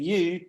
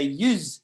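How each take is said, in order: First: Said in the usual way. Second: "yous" said as you with a buzzing z on the end, one syllable; Irish dialect "yous" with a final z sound; Irish plural yous. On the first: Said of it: "So instead of saying". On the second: Shown as a demonstration. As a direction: say "yous" like an Irish local, ending on z. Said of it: "they say".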